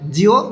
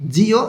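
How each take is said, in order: First: The ending is said quickly as one syllable. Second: The ending is said fully as two syllables. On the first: "দ্রুত উচ্চারণ করে" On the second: "জিও এরকম না বলে"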